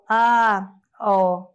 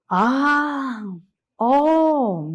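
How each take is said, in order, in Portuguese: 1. É dita sem emoção, de forma neutra. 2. É dita com emoção exclamativa e admirativa. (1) "se eu for falar só" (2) "Aí eu digo"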